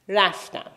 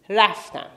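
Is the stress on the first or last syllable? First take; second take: first; first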